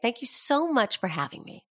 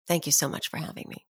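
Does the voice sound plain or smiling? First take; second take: smiling; plain. First: The voice sounds bright, with a smile. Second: The voice sounds plain, without a smile. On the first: "you were smiling the second time, right? That's correct" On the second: "There's one, right?"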